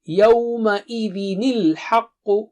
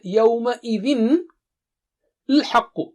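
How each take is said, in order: First: The words are joined with a linking nil sound. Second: The two words are said separately, unlinked.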